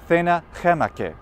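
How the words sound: Latin spoken with a Spanish pronunciation. "how they pronounced that in Spain?"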